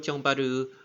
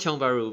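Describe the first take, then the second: First: The name is said with Japanese-style syllables. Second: The name is said in a plain local style. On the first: "I don't call Tiong Baru Tiong Baru" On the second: "I call it Tiong Baru"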